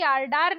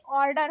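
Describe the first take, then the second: First: ऑर्डर said "aar-daar" with long aa vowels; wrong pronunciation. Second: ऑर्डर said "or-dar" with rounded first vowel; rounded aw opening ऑर्डर; correct pronunciation. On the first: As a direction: say ऑर्डर as "aardaar". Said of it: "ऑर्डर होता है". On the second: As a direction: say ऑर्डर as "awrdar". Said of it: "यानी कि ऑर्डर नहीं". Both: Shown as a demonstration.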